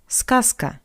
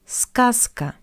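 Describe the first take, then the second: The two takes are said the same way.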